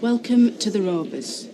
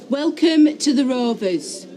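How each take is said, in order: First: It is said quietly. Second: It is said loudly.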